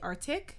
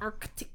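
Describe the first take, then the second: First: The c sound before the t is dropped. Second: The c sound before the t is pronounced. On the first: The speaker calls it wrong. "Some people say Arctic" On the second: The speaker calls it right. "you gotta hit that other C"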